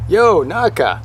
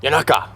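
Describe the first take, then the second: First: "Yo Naka" as two words, higher pitched, full "Yo"; trying a pronunciation. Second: "Yanaka" run together quickly as one word; alternative pronunciation. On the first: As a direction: sound out "Yo Naka" with a long "oh" first. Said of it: "how do you say that?". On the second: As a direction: shrink the first vowel of "Yanaka" to a short "yuh". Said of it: "or is it". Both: Shown as a demonstration.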